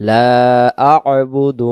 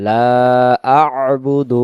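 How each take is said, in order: Both takes have the same delivery.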